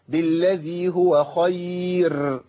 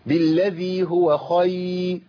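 First: The r sound is rolled with repeated taps. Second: The r sound is dropped almost completely. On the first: "اسمع الخطأ ده ... كده كررت الراء" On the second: "خفيتها خالص، راحت خالص"

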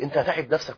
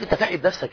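First: The tone is calm and gentle. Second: The tone is harsh and irritated. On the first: The wife is worried about the husband's health. The speaker calls it right. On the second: The husband is being scolded. The speaker calls it wrong.

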